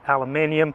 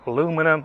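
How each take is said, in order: First: It is said with five syllables, British style. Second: It is said with four syllables, American style.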